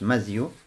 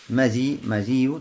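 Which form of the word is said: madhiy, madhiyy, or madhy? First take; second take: madhy; madhiy. First: No vowel follows the dh sound. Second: An i vowel follows dh, with a single y. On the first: "с фатхи буквой мим и с сукуном заль" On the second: "то есть без удвоения я"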